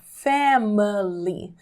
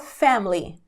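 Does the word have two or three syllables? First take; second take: three; two. First: The word is said with three full syllables. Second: The middle vowel is dropped, leaving two syllables. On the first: "São três sílabas" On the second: "eles reduziram para duas sílabas"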